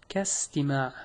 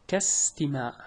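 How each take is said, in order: Both takes have the same delivery.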